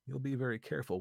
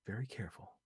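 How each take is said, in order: First: Said in the usual way. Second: Softly, a near whisper; hushed. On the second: A narrator's reading. Lucy hushing back to Vi, softly. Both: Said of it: "Lucy whispered".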